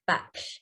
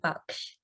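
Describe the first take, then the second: First: The name is said with an English pronunciation. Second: The name is said with an Indian pronunciation. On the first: "It's pronounced Baksh" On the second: "if I was to pronounce it in the uh, Indian way"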